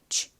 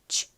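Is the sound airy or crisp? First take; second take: airy; airy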